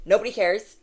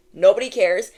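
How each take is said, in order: First: Said in the usual way. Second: Nobody cares said louder; louder repeat. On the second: Shown as a demonstration. Reader dismisses haters, louder second time. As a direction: push Nobody cares out firmly. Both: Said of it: "repeated louder".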